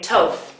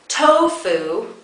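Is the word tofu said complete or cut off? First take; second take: cut off; complete. First: The final syllable is cut off. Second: The word is said with both syllables. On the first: The speaker calls it wrong. "you might say tof" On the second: The speaker calls it right. "instead of tofu"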